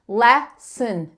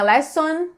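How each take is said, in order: First: The last syllable has a reduced schwa vowel. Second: The last syllable has a full 'on' vowel. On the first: The speaker calls it right. "é aquele uh que eu te falei antes" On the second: The speaker calls it wrong. "não é lesson"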